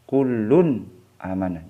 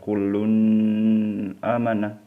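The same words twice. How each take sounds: First: The n sound is pronounced clearly and distinctly. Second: The n sound is blurred and not distinct. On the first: The speaker calls it right. "harus jelas dan terang" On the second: The speaker calls it wrong. "jangan dibaca"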